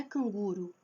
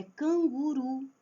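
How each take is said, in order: First: "canguru" stressed on GU, final ru weak; wrong stress on penult. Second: "canguru" slowly, final RU strong and held; stress on last syllable. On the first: Teacher shows the mistake, "canguru" stressed on GU. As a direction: say "canguru" as can-GU-ru. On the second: Teacher corrects the mistake, "canguru" stressed on final RU. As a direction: say "canguru" as can-gu-RU. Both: Shown as a demonstration. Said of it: "Não é canguru".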